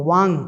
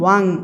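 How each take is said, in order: The two takes are said the same way.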